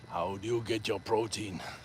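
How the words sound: It is read in a put-on Austrian-accented voice.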